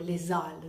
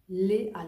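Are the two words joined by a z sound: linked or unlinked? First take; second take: linked; unlinked. First: A z sound links the two words. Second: The words are said without a linking z sound. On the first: The speaker calls it wrong. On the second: The speaker calls it right.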